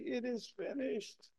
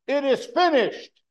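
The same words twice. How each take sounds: First: It is said weakly and tiredly. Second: It is said loudly and forcefully.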